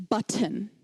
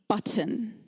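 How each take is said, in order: Both takes have the same delivery.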